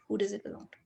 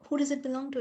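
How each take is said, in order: First: It is asked in a weary, mechanical way. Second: It is asked with energy and full presence.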